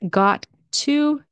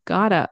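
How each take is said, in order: First: It is said as two full, separate words. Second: It is reduced and blended into one word.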